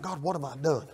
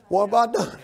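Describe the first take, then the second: First: Soft, puzzled plea to God; hushed bewildered prayer. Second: Said in the usual way. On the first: Retold or imitated. Husband outside puzzling over his wife, hushed. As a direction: murmur it, lost and confused.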